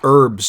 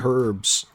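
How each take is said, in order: First: The word starts with a silent H. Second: The word starts with a pronounced H sound. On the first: The speaker calls it right. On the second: The speaker calls it wrong. "Why did I say herbs? Who pronounces the H in herbs?"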